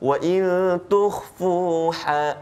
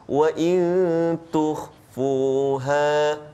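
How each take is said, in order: First: The h sound is harsh and raspy. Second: The h sound is soft and light. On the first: The speaker calls it wrong. "Contoh yang salah, ... ha pedas" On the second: The speaker calls it right. "Yang betul. ... elakkan baca pedas"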